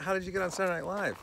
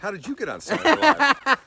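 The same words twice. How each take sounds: First: It is asked as a plain, neutral question. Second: It is asked in a disbelieving, incredulous tone.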